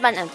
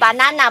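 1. 重音在第一个音节。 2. 重音在第二个音节。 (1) "不是banana" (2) "重音在第二个"

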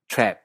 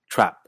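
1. La vocal suena parecida a la 'e'. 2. La vocal suena como la 'a' de casa. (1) "Australia y Nueva Zelanda, la vocal se hace aún más abierta, sonando más o menos parecido a nuestra E en perro" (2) "En Canadá, en general es una vocal que se parece bastante a nuestra A de casa"

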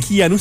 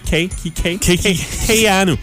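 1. La première syllabe ne se prononce pas comme 'kay'. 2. La première syllabe se prononce comme 'kay'. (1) "Et non pas Keanu" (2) "c'est Kay"

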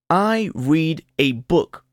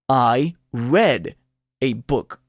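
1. La vocal en read es una ee larga. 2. La vocal en read es una e corta. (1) "Yo leo un libro" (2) "en el pasado se deletrea igual que en el presente, pero se pronuncia diferente"

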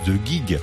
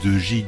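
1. Le nom est prononcé à l'anglaise. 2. Le nom est prononcé à la française. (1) "ça se dit" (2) "je vous l'ai dit à la française"

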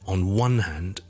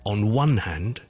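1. 重音落在 one 这个词上。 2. 重音落在 one 这个词上。

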